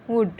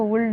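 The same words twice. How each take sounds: First: वुड with silent l, wood; correct would. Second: वुल्ड with a sounded l; wrong would. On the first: Teacher showing students the right reading, silent l. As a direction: say वुड with no l at all. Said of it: "ऐसे पढ़ा जाता है". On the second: Teacher rejecting a misreading, mispronounced. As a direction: say वुल्ड as woold, l heard. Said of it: "इसको वुल्ड नहीं". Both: Shown as a demonstration.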